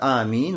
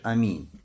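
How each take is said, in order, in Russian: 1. Первый гласный удерживается на две доли. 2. Первый гласный краткий, не растянут. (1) "когда тянешь два харака, то есть обычный мат, аминь, вот так" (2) "когда вообще не тянешь, а просто говоришь аминь"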